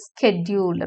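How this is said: The word begins with an 'sk' sound. "American இங்கிலீஷ்ல ஸ்கெட்யூல் அப்படின்னு சொல்லுவாங்க"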